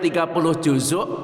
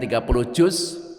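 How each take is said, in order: First: The last word has two syllables, ending in k. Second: The last word has one syllable, ending in z. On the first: The speaker calls it right. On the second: The speaker calls it wrong.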